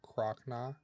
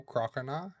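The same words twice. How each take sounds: First: Croconaw as "CROCK-naw", two syllables; middle O left out. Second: Croconaw as "CROCK-uh-naw"; full three syllables. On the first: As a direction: run Croc straight into naw in Croconaw. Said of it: "leave out the extra O". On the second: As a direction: sound the extra vowel in the middle of Croconaw. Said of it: "the extra O". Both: Shown as a demonstration.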